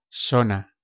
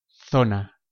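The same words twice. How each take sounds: First: The z is said like English s. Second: The z is said like English th.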